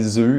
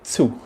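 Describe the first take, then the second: First: The word begins with a plain z sound. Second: The word begins with a ts sound. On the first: "you'd say zoo in Australia" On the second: "in German you would say zu"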